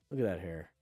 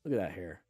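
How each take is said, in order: Both takes have the same delivery.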